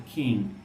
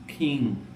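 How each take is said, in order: No difference in how they are said.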